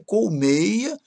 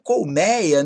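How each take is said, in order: First: The stressed vowel is closed. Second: The stressed vowel is open. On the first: The speaker calls it right. "Mas o melhor é colmeia" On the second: The speaker calls it wrong. "Muita gente gosta de falar colmeia"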